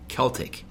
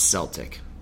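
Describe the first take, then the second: First: It is pronounced the overseas way. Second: It is pronounced like the Boston Celtics. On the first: This is how people over there say it. The speaker calls it wrong. "It's not Celtic" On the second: This is how Americans say it. The speaker calls it right. "we say Celtic because of the Boston Celtics"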